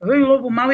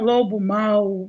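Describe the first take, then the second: First: Chamado um pouco mais forte ao lobo mau; entonação de personagem. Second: Lobo mau arrastado, bem lento; entonação de lobo mau. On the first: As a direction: mudar levemente a voz para o personagem. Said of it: "você muda aquela entonação". (leve voz de personagem infantil) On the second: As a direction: alongar as palavras como num conto infantil. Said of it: "quando eu uso essa entonação". (entonação de personagem de história) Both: Shown as a demonstration.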